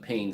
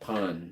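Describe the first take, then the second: First: It rhymes with rain, ending in n. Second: It has a nasal vowel, like pawn. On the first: This is how the speaker says it. "but I say" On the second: This is how the French say it. "They pronounce it pawn"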